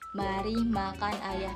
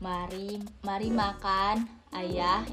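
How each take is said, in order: First: It runs straight through without any pause. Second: There is a pause after the first word. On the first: Someone is inviting others to eat the father. "dilangsungin ini tanpa tanda baca atau tanda koma" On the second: The father is being invited to eat. "Ini pakai tanda komanya. Jadi kayak ada jedanya gitu loh"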